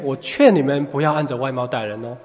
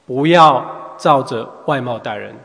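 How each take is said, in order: First: It is said in a gentle, coaxing tone. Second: It is said in a firm, commanding tone.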